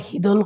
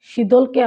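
First: হিদল opening on h, with d in the middle; Sylheti pronunciation. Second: Said in the usual way. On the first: Shown as a demonstration. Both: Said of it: "আমরা হিদল কই".

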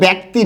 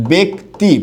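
First: ব্যক্তি with an open æ, "bækti"; wrong pronunciation. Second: ব্যক্তি split as "bek ... ti"; correct pronunciation. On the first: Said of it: "এটা কিন্তু ব্যক্তি না". (ব্যক্তি ভুলভাবে "ব্যাক্তি" উচ্চারণ) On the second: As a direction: say ব্যক্তি with a closed e, in two separated syllables. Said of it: "এরকম হবে". (ব্যক্তি ভেঙে "বেক্ ... তি" উচ্চারণ) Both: Shown as a demonstration.

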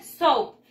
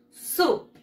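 First: "soup" read in Spanish with an o, "so-oop"; as spelt. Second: "Soup" as one syllable with oo, "soop"; English pronunciation. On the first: Teacher showing pupils how it is written, "soup" with an o sound. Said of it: "Sopita se escribe". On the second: Teacher showing pupils how it is pronounced, "Soup" as "soop". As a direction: model "Soup" crisply in English, long oo. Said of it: "y se pronuncia así". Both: Shown as a demonstration.

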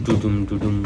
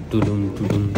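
The two takes are said the same way.

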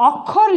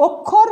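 First: অক্ষর with open ɔ, "awk-khor"; as written, open vowel. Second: অক্ষর with rounded o, "ok-khor"; as pronounced, closed o. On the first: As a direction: say অক্ষর as spelt, first vowel wide. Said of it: "লিখেছি". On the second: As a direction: say অক্ষর with first vowel closed to o. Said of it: "উচ্চারণ হবে". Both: Shown as a demonstration.

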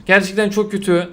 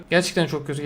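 First: Said in the usual way. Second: Much softer and lower, sinking into disappointment; deflated mutter. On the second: Real, not acted. Streamer repeating it to himself, softly deflated. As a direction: let it die away under your breath. Bad pack pull, repeated.

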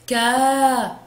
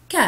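First: "كا" held long as "kaa"; long vowel. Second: Short, soft "ك" with a quick "a"; short vowel. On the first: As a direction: stretch out the "a" in "كا". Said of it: "صوت طويل". ("كا" بصوت طويل ممدود) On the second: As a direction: cut "ك" short as a brief "ka". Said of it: "صوت قصير". ("ك" بصوت قصير مفتوح) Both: Shown as a demonstration.

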